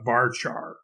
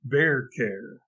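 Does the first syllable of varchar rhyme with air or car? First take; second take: car; air. First: The word rhymes with far par. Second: The parts sound like the start of variable and character. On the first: This is how most programmers say it. The speaker calls it wrong. "not varchar" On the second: It follows the words the term comes from. The speaker calls it right. "the V A R part comes from the word variable, and the C H A R part comes from the word character"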